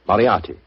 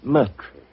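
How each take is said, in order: First: The name is pronounced the way it's spelled. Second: The name is not pronounced the way it's spelled.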